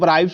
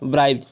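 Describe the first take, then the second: First: The final sound is a hissing s. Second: The final sound is a buzzing z. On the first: The speaker calls it wrong. "एस का उच्चारण नहीं जानते हैं क्या होगा तो ब्राइब्स बोलते हैं" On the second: The speaker calls it right. "इसलिए इसका उच्चारण ब्राइब्ड होगा"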